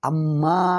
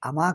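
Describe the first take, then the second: First: The m sound is held long and doubled. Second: The m sound is short and single. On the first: The speaker calls it right. "ఒత్తి అమ్మా అను" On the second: The speaker calls it wrong. "అమా కాదురా"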